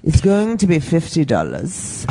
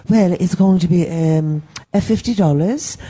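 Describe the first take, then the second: First: Slow, lower mock German accent. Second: Hesitant, badly faked accent of no clear country; muddled foreign accent. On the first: Comic retelling the clerk's fifty-dollar demand, mock German accent. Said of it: "I'll do my German accent". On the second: Comic retelling the clerk quoting the fee, muddled mock accent. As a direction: imitate a clerk in an unplaceable accent. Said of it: "what the fuck is this accent?".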